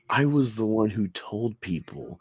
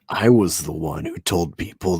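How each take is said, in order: First: It is read in a plain, ordinary voice. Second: It is read in a stern, serious voice. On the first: The speaker calls it wrong. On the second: The speaker calls it right.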